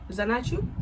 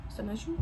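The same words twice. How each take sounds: First: Said in the usual way. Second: Much softer, pressing the question again; quiet repeat. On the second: Retold or imitated. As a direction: drop the voice on the repeat. Confronting him with the picture.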